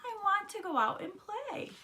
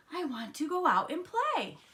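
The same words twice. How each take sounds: First: Very high, pleading whine; crying protest. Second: Put-on high, eager kid-frog voice; eager yell. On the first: Froggy begging his mother to go out, high whine. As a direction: plead high without shouting. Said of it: "cried Froggy". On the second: Froggy waking up ready to play, eager yell. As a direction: call it out high, bursting to get outside. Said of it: "Froggy woke up and yelled". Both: A narrator's reading.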